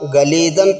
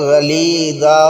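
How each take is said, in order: First: The word ends with an n sound. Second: The word ends on a long a vowel. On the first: The reading continues into the next word. "गलीज़न पढ़ेंगे" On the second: The reading stops on this word. "रुकेंगे तो गलीज़ा होगा"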